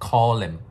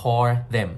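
First: The word 'them' is reduced to 'em'. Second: The word 'them' is said in full. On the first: "อาจจะออกเสียงยากก็เป็น" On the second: "มันมาจากคำว่า"

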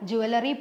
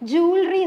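First: The word begins with a jwel sound. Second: The word begins with a jool sound. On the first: The speaker calls it wrong. "ഇത് എല്ലാവരും പറയും" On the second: The speaker calls it right. "കറക്റ്റായിട്ട് pronounce ചെയ്യുന്നത് ജൂവലറി എന്നാണ്"

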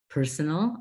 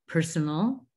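Both takes have the same delivery.

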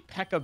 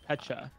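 First: The middle consonant is a k sound. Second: The middle consonant is a ch sound. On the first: The speaker calls it wrong. "you say pekka berry" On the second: The speaker calls it right. "There's a ch. It's pecha"

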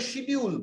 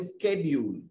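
First: It begins with 'sh', British style. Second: It begins with 'sk', American style.

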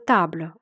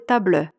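First: The final vowel is silent, leaving one syllable. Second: The final vowel is sounded and stressed. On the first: The speaker calls it right. "буква «е», якщо вона стоїть в кінці слова, не читається" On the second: The speaker calls it wrong. "Чому ми не сказали табле"

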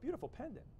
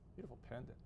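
First: The voice sounds warm and friendly. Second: The voice sounds cold and unfriendly. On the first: The speaker sincerely admires the pendant. "One was a little friendlier" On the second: The speaker does not really mean the compliment. "one was a little not so friendlier"

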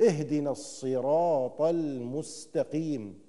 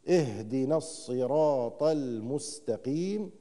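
The two takes are said the same way.

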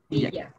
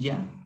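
First: The middle consonant is an l sound. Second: The middle consonant is a y sound. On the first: This is the Amazonian pronunciation. "en quichua de la Amazonía lo pronuncian como iliac" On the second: This is the highland pronunciation. "en la sierra, sí, he visto que hay como un iya"

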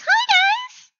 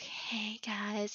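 First: It is said in a plain, unsoothing voice. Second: It is said in a soft, soothing voice.

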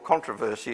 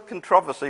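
First: It is said the way local listeners say it. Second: It is said in the speaker's home-country way. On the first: "as you like to say it over here" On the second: "I come from a different country"

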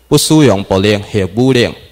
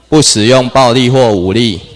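First: It is read in Taiwanese Hokkien. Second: It is read in Mandarin Chinese. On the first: "咱念台语的" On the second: "普通话"

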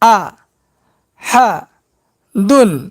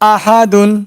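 First: Each syllable is said separately with breaks. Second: The syllables are joined into one word. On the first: "এবার ভাঙ্গা ভাঙ্গা উচ্চারণ করব।" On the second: "এবার একসঙ্গে উচ্চারণ করব।"

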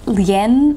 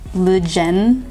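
First: The word is said without a J sound. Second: The word is said with a J sound.

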